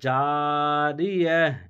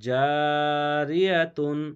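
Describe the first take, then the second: First: The word ends with a soft h sound. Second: The word ends with a full -tun syllable. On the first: The reader stops at this word. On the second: The reading continues without stopping.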